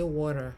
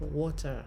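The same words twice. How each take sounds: First: The t is softened, American style. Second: The t is clearly pronounced. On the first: "America will say water" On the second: "So we pronounce the T"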